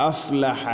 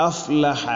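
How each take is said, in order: Both takes have the same delivery.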